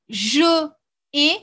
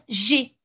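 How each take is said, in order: First: The e of je is kept before ai. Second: The e of je is dropped before ai. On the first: The speaker calls it wrong. "ça n'existe pas parce qu'on enlève le E" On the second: The speaker calls it right. "on va dire G"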